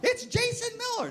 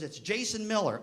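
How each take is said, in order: First: Very high, mocking kid's announcement; mock squeaky student voice; dreaded caller. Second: Put-on kid's reply. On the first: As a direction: squeal the name as a nightmare. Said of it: "Now I think I'm having a nightmare". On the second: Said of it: "that's a kid I hated".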